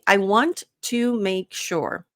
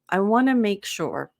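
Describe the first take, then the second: First: 'Want to' is said as two full words. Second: 'Want to' is blended into 'wanna'. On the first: "if I'm saying it correctly" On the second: "this is how we pronounce it"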